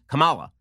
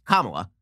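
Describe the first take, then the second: First: Kamala said kuh-MAH-la; stress on second syllable. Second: Kamala said KAH-ma-la; stress on first syllable. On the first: Host showing his old reading from paper, Kamala as kuh-MAH-la. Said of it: "I used to pronounce it". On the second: Host showing the correct pronunciation, Kamala as KAH-ma-la. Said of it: "emphasis is on the first syllable". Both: Shown as a demonstration.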